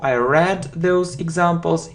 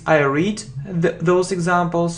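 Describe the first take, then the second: First: Read is said with a short e vowel. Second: Read is said with a long ee vowel. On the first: It happened in the past. "it's past simple" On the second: It happens regularly now. "so it's present simple"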